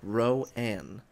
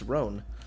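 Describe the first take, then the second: First: The name is split into two syllables. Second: The name is said as one syllable. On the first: The speaker calls it wrong. "Most people say Ro-Ann" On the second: The speaker calls it right. "It's Roan"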